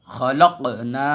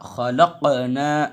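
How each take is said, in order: First: खलक़ना with the क़ flat, no bounce; wrong reading. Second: खलक़ना slowly, the क़ knocked and rebounding; slow correct qalqala. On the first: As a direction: read it the mistaken way. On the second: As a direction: stretch खलक़ना out with a bounced क़. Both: Shown as a demonstration. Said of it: "खलक़ना नहीं कहेंगे".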